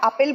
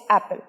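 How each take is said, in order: First: The first vowel is an open 'ah' sound. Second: The first vowel sounds like the 'a' in cat. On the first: The speaker calls it wrong. "আপেলকে আমরা আপেল বলি না" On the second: The speaker calls it right. "বলি হচ্ছে অ্যাপেল"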